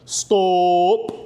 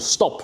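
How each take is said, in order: First: It is called out like a range command. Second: It is said as a plain, ordinary word.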